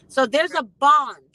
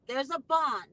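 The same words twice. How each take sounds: First: Bond said louder and slower; stress on bond. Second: Said in the usual way. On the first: Real, not acted. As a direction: lean on bond, slowly and loud.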